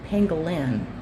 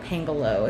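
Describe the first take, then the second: First: The word ends in an 'in' syllable. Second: The word ends in an 'o' vowel. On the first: The speaker calls it right. "it's a pangolin" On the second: The speaker calls it wrong. "it's not a pangolo"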